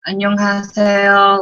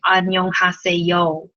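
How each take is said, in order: First: 안녕하세요 said quickly and a bit louder, with native Korean flow; right Korean accent. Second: 안녕하세요 spoken with an un-Korean, English-style accent; wrong accent. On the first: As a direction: say 안녕하세요 fast and natural, as a Korean would. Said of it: "It'd be like". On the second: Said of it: "you wouldn't say it with that kind of accent". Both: Shown as a demonstration.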